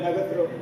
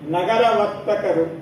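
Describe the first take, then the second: First: The name is said as one shortened word. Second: The name is said as two full words. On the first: The speaker calls it wrong. "ನಗರತರು ಏನ್ ಆ ರೀತಿಯ ಶಬ್ದದ ಅರ್ಥವೇ ಗೊತ್ತಿಲ್ಲ" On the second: The speaker calls it right. "ವಾಸ್ತವವಾಗಿ"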